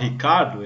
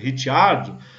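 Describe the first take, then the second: First: The name is said without its Italian pronunciation. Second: The name is said with its Italian pronunciation. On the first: The speaker calls it wrong. "eu me recuso a falar Ricardo" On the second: The speaker calls it right. "Como descendente italiano"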